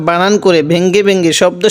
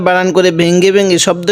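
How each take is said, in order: Both takes have the same delivery.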